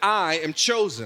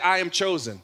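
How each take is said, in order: First: It is said with strong, believing conviction. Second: It is said plainly, without strong conviction.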